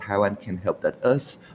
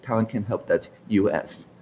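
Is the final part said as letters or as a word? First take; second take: word; letters. First: The ending is said as the word 'us'. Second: The ending is spelled out as letters U S.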